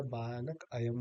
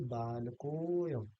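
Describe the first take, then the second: First: बालक अयम as two words with the अ sounded; two separate words. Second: बालकोयम slowly, with a long-held को; बालकोयम as one word, dropped अ; drawn-out joined o. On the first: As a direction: say बालक, then अयम, unjoined. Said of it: "नहीं बोला जाएगा". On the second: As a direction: hold the को in बालकोयम and glide into यम. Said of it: "को में थोड़ा सा दीर्घ". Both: Shown as a demonstration.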